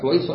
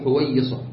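First: The y sound is short and single. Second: The y sound is doubled and held longer. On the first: "وسكون الياء" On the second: "وقد تشدد"

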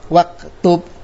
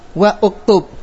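First: Wa links straight into the word without glottal stop. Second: A glottal stop and vowel are pronounced after wa. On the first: The speaker calls it right. "Kita baca" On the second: The speaker calls it wrong. "berarti salah"

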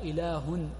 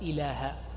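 First: The word ends in a short u vowel. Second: The word ends in a short a vowel. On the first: The speaker calls it wrong. "وأقبح منه إذا جعلها ضمة" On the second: The speaker calls it right. "وإنما هي أشهد أن لا إله"

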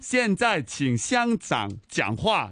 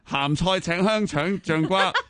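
First: It is said in plain standard Mandarin pronunciation. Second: It is said with a heavy, distorted regional accent.

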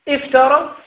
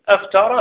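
First: The word begins with an 'i' vowel. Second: The word begins with an 'a' vowel. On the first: It states a fact. "هذا افترى هذا خبر" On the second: It asks a question. "أفترى هذه سؤال"

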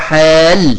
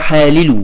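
First: The two l sounds merge into one doubled l. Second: The two l sounds are said separately. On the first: The speaker calls it right. "حال ويحل بالإدغام" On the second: The speaker calls it wrong. "غير فصيح"

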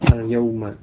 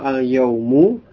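First: The word ends with a short 'a' vowel. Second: The word ends with a short 'u' vowel. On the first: It means on that day, when it was spoken. "Dengan membaca dhamma dan membaca fathah" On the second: It just means a day. "kalau al-yaumu dengan dhamma"

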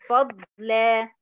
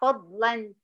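First: The word ends with a long a vowel. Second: The word ends with an n sound. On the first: The reader stops on the word. "هقف عليها بحرف مد طبيعي حركتين" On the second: The word is joined to the following words. "هوصل او هنطقها فضلا"

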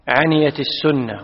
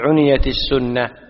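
First: The verb's first vowel is a, not u. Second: The verb's first vowel is u, then i. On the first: The speaker calls it wrong. "ولا تقول" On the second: The speaker calls it right. "وإنما تقول"

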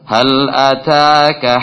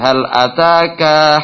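First: The final vowel of ataka is kept short. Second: The final vowel of ataka is drawn out long. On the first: The speaker calls it right. "Pendek. Jadi tidak boleh dipanjangkan" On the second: The speaker calls it wrong.

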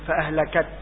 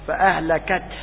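First: The h sound is dropped and not heard. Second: The h sound is pressed and clearly heard. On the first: The speaker calls it wrong. "يقول فأهلكت ولا ينطق الهاء" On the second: The speaker calls it right. "هكذا يتحقق الهاء"

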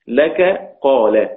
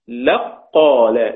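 First: The k sound is heard before the q. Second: The k sound merges fully into the q. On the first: "كاف مفتوحة وقاف مفتوحة" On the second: "الكاف راحت فين؟ أدغمت في القاف"

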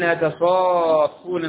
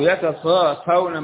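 First: The f sound is doubled and held longer. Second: The f sound is single and short. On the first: "بالتشدد تشديد مرة" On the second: "وهكذا مرة"

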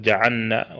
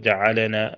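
First: The lam is merged into the following nun. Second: The lam is released with an echoing bounce. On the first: "بعض الناس يضغم اللام في النون" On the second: "وبعضهم قلقل"

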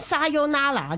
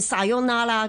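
First: The word is said with Cantonese-style syllables. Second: The word is said with Japanese-style syllables. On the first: The speaker calls it wrong. "我哋系唔知点样学错诗咧，讲沙尤拉拿噶嘛" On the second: The speaker calls it right. "正确发音系sayonara 嘅"

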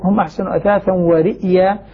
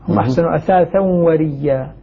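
First: The last word has a glottal stop before y. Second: The last word has a doubled y, no glottal stop. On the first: "بهمزة ساكنة بعدها ياء مفتوحة" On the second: "يبدل الهمزة ياء ساكنة فتلتقي مع ياء متحركة فيدغمان تصبح ريا"

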